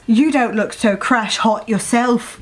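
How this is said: It is said in a put-on British accent.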